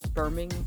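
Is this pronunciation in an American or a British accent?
British. It is said in a British accent. "or as you all say, Birmingham"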